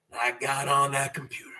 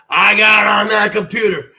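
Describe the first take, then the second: First: Softer, quick confiding line; hushed. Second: Louder hype repeat with a falling end; shouted repeat. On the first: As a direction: drop it low and fast, like a secret. First take, hushed. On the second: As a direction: punch it out like a wrestling promo. Second take, shouted. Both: Acted.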